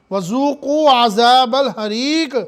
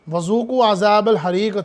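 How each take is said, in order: First: Slow chanted verse recitation; Quranic recitation. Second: Said in the usual way. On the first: Acted. Preacher reciting the verse to the congregation, slow chant. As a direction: draw out the verse like tajweed.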